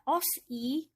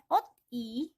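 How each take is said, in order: First: An s sound ends, then a separate i. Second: A t sound ends, then a separate i. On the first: "jadi bukan dibaca os i, bukan, salah ya" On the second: "Bukan dibaca ot i, bukan"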